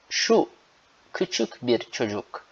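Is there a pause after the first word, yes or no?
yes. There is a pause after şu.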